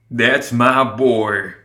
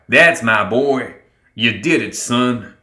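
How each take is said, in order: First: Very slow, proud sigh; misty-eyed father, stretched words. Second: Loud, drawn-out opening, then easing; proud father cheering his son; slow, hearty praise; proud cry. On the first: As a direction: draw it out, moved with pride. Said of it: "Summer sighed". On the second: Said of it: "Summer cried". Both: A narrator's reading.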